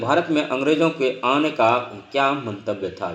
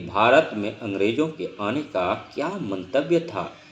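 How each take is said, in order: First: It is spoken quickly without pausing. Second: It is spoken slowly with pauses. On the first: Time and data are short. "इसमें आदमी speed से बोलता है" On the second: The listener gets time to think. "पढ़ाने की कला जो है इस तरह से है"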